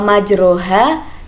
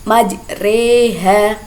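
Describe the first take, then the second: First: The vowel after the r is a clear 'a'. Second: The vowel after the r is tilted toward 'e'. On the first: "membaca huruf berharakat fathah yang dimiringkan ke kasroh" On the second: "dibaca majreha"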